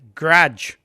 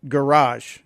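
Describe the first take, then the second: First: The word is squeezed into one syllable. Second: The word is said with two syllables. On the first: This is how Chicago locals say it. "We pronounce it garage. ... like a one syllable word" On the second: This is how people elsewhere say it. "we don't pronounce it garage"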